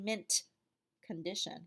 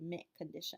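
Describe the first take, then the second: First: The T in mint is fully released. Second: The T in mint is a glottal stop. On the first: The speaker calls it wrong. "You don't say mint condition" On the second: The speaker calls it right. "the T kind of disappears in the back of your mouth, becomes a glottal stop"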